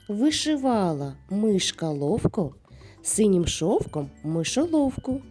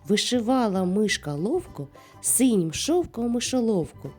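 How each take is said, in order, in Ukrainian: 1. Її вимовляють швидшим темпом. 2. Її вимовляють найшвидшим темпом. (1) "А тепер давайте швидше" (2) "А тепер давай іще швидше"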